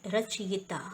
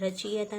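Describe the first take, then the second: First: रचयिता as "rachayita"; correct pronunciation. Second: रचयिता as "rachiyata"; wrong pronunciation. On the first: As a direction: put the i after y in रचयिता. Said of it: "क्या होता है हमारा?". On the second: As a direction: put the i before y in रचयिता. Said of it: "नहीं होता". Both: Shown as a demonstration.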